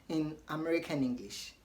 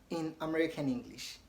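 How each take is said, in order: The two takes are said the same way.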